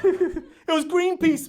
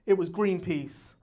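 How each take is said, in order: First: Very slow, drawn-out "Greenpeace"; "Greenpeace" stretched slow and falling; slow punchline. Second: Low, slow "Greenpeace" reveal; "Greenpeace" said low and falling; punchline. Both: Shown as a demonstration.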